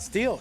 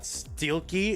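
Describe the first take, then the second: First: The name ends with an l sound. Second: The name ends with a key sound. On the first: "it's not" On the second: "It's not"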